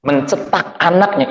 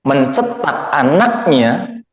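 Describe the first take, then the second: First: Said in the usual way. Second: "Mencetak anaknya" drawn out slowly, ending on a rise; slow emphatic repeat. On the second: Shown as a demonstration. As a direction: lean on "Mencetak anaknya" slowly, letting each syllable land.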